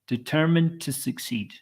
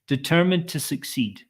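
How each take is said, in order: First: The final D is softened and linked smoothly. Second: The same.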